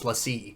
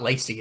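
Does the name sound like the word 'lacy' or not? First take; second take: not like lacy; like lacy. First: It does not sound like the word lacy. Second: It sounds like the English word lacy. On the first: The speaker calls it right. "it's LaCie" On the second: The speaker calls it wrong. "it's not Lacy"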